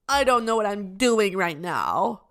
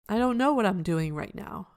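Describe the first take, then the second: First: The tone is whiny and complaining. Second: The tone is calm, neutral and matter-of-fact. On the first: The speaker feels sorry for themselves. The speaker calls it wrong. "not in a whiny way" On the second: The speaker simply observes the truth of the situation. The speaker calls it right. "just in a neutral, observant way"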